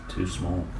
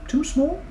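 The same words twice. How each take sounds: First: Low, soft falling agreement; flat statement. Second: High rising question. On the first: Onlookers agree, low and falling. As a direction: answer it flatly. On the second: Onlookers ask in disbelief, high and rising. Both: Shown as a demonstration.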